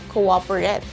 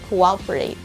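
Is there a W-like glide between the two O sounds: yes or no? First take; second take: no; yes. First: The two O sounds have no glide between them. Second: A W-like glide joins the two O sounds. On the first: The speaker calls it wrong. "It's not cooperate" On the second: The speaker calls it right. "Imagine that there is W between those two O's"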